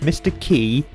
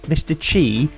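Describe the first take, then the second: First: The name sounds like the word key. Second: The name starts with a ch sound, chee. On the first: "pronounced Mister Key"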